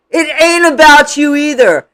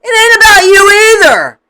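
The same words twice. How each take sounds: First: Said in the usual way. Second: Loud, high, punched on about; emphatic shout. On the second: Real, not acted. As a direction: snap it out loudly. Repeats line, first take shouted.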